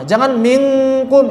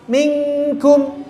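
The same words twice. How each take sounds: First: Minkum said with a heavy, thick kaf; wrong thick minkum. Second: Minkum with the nun almost clear, near idhar; light-hidden minkum; minkum close to idhar. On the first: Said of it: "itu tebal". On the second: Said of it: "mirip idhar ya". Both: Shown as a demonstration.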